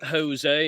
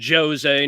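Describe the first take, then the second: First: The J is a breathy h sound. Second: The J is a soft zh sound. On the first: The speaker calls it wrong. "No huh" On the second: The speaker calls it right. "It's ju"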